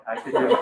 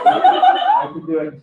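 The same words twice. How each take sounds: First: Said in the usual way. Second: High, slow hammed-up fury; mock rage. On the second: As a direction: stretch it out like a madman. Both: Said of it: "I felt real rage".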